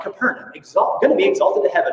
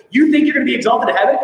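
First: Much higher, a boastful civic slogan; proud city motto. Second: Fast, louder, higher mocking retort; sarcastic. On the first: Retold or imitated. Preacher imitating Capernaum's proud motto, boastful and high. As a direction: toss it off like the town's own proud boast. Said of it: "it was something along the lines of". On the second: Jesus mocking Capernaum's boast, loud fast sarcastic jab. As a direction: scoff at their pride with sarcasm. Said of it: "Jesus is sarcastic".

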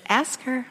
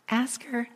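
First: Said in the usual way. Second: Softer echo of the nudge, dropping away; small quiet voice. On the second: Retold or imitated. Preacher voicing the small inner voice, quietly. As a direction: let "Ask her" fall soft like an inner voice. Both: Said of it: "that small voice".

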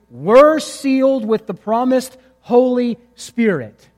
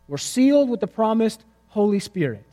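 First: Slow, weighty reading of "were sealed with the promised Holy Spirit"; emphatic scripture reading. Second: Said in the usual way. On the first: Shown as a demonstration. Preacher reading the verse aloud to the congregation, slow and emphatic. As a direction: lean on "were" and "sealed", drawn out. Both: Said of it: "happens immediately".

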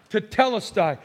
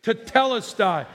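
First: Tetelestai again as teh-TEL-es-tie, stress on TEL, falling; Greek word tetelestai. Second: Tetelestai said as teh-TEL-es-tie, stress on TEL, falling; Greek word tetelestai. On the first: Preacher and congregation saying tetelestai in unison. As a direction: repeat tetelestai with the room. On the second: Preacher leading the congregation in saying tetelestai together. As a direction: lead the room in saying tetelestai. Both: Shown as a demonstration. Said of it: "Let's say it together".

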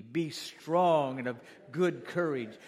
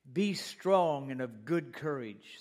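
First: Slow emphatic repeat; congregation call-back. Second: Be strong and of good courage, each word weighted, slow; slow preacher's emphasis; slow emphatic declaration. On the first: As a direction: lead the church in repeating it. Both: Shown as a demonstration. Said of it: "Say that with me".

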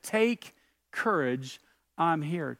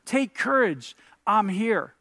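First: Said in the usual way. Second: Higher, emphatic "Take courage, I'm here"; emphatic repeat. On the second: Acted. Preacher driving Jesus's words home, emphatic "Take courage, I'm here".

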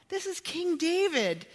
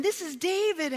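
First: "King David" hit with a high start and a falling "David"; building emphasis. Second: High stress on "This", falling to "David"; emphatic. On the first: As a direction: raise the pitch and land firmly on "David". Repeats with King added, building. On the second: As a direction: lift "This" high and let "is David" fall. Preacher stressing David's stature. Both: Acted.

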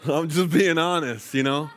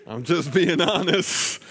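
First: Earnest admission. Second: Slow, high, laughing through it; laughing confession. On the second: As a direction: laugh as you admit it. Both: Real, not acted.

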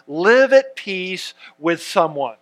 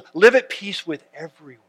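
First: Live AT peace, stress on the wrong word; misread stress. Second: "Live" stressed first, "at" left light; corrected stress. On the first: Pastor misreading the verse, stress falling on "at". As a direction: lean on "at" in "live at peace with someone". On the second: Pastor correcting his misread verse with a laugh, "Live" stressed. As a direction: open with a firm "Live" in "Live at peace with everyone". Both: Shown as a demonstration. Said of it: "you put the emphasis on the right syllable".

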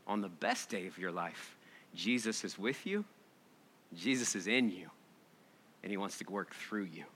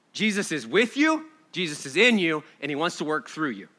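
First: Much softer, lower, tender; soft hushed refrain. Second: Said in the usual way. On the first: Shown as a demonstration. Preacher closing gently to the congregation, hushed and tender. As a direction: let it drop to a near-hush. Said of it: "repeated refrain softer". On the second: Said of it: "repeated refrain".

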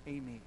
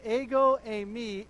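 First: Said in the usual way. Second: Ego eimi said louder with stress on ego; emphatic Greek. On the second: Shown as a demonstration. Preacher stressing ego eimi emphatically for the congregation. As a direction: lean hard on ego eimi. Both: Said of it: "in the Greek is actually in the emphatic".

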